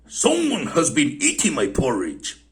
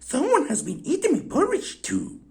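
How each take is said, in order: First: It is said in a great big voice. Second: It is said in a wee little voice.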